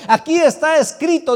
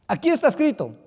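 First: Louder, higher ringing declaration; loud proclamation. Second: Said in the usual way. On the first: Acted. Preacher proclaiming scripture to the church, loud. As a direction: announce it with full force. Repeats phrase, first loud.

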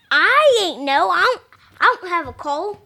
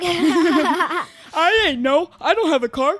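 First: Squawky cartoon duck voice, lightly done; a kid's quick Donald Duck impression. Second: Laughing through a copied duck voice; giggling copy of the duck impression; Donald Duck voice. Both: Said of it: "[name]'s doing his Donald Duck impression".

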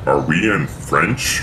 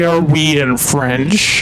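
First: Slow, quiet doubtful repeat; puzzled reconsidering. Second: Slow, teasing echo of his words; mock him by repeating slowly. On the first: Real, not acted. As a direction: rethink it aloud, slowly and softer. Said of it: "Are, wait". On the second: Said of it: "Did you just say".

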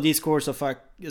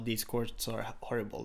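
First: Slow, louder mock complaint; a hint of an irate player; quoting an angry complaint. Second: Calmer, softer retake of the complaint; the same complaint, lightly voiced and softer; corrected complaint. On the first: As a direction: replay the cut-off curse to the umpire. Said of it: "Ja, han sa". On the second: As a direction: catch yourself and say it clean. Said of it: "stoppade han sig själv och sa".

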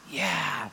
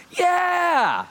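First: A soft, low, barely-there yeah; toddler's whisper. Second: A much higher, louder, squealing yeah; toddler's scream. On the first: Dad imitating his two-year-old's whisper about Disney, softer and lower. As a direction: imitate his daughter's hushed little yeah. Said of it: "she kinda whispers". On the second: Dad imitating his daughter screaming over food, high and loud. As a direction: shriek it like an excited two-year-old. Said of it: "She screamed". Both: Retold or imitated.

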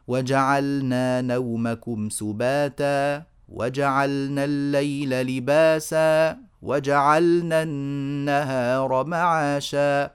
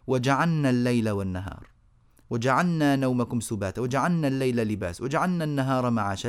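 First: وجعلنا slow, with a clear sukun on the لام; correct reading. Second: وجعلنا with لام swallowed into نون; quick "وجعلنا" without a clear لام; wrong reading. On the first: Teacher recites the correct way after the mistake. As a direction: recite it slowly, holding the لام still. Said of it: "الصحيح". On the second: Teacher imitating the wrong reading. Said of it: "أدغموا اللام في النون كأنهم يقولوا". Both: Shown as a demonstration.

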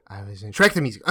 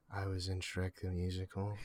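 First: Much louder, quicker confession; louder admission. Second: Soft, lowered confession; sheepish low admission. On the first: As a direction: blurt it out loud and fast. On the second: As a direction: admit it under your voice, embarrassed. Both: Acted. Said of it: "just a little louder".

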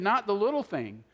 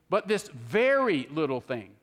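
First: Said in the usual way. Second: "very" stretched out slowly with a pitch swoop; slow, leaning hard on "very"; stress on VERY. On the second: Shown as a demonstration. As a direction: draw out "very" for emphasis. Contrasts little with very little.

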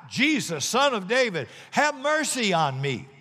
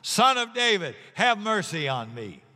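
First: Higher calling out for mercy; pleading call. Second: Louder plea. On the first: Blind beggar calling to Jesus over the crowd, pleading. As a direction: call out to him across the crowd. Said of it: "he began to shout". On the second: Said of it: "He only shouted louder". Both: Acted.

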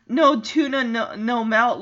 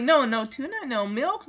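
First: "melt" said with an eh vowel; misheard line. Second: "milk" said with a short i and final k; corrected line. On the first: Viewer recalls what she misheard in the theater, clear "melt". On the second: Viewer gives the real line, clear "milk". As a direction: give "milk" its proper vowel, list-like. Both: Shown as a demonstration. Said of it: "I thought she said".

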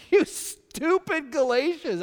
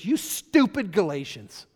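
First: Much higher and loud, slow, outraged; exasperated scolding. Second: Loud, slow, emphatic scolding; scolding quote. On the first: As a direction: fling it out like an outraged apostle. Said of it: "How you like that in the Bible?". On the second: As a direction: lean on each word like an exasperated apostle. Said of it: "he goes". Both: Retold or imitated.

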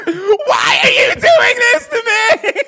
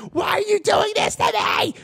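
First: High, loud, slow sobbing scream; crying scream. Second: High screaming wail; hysterical shout. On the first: Storyteller imitates the rock star sobbing at the radio song. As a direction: scream and sob it like a meltdown. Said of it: "and she goes". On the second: Storyteller imitates the rock star's floor meltdown with a high scream. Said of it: "slamming her fucking fist ... shaking her head like". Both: Retold or imitated.

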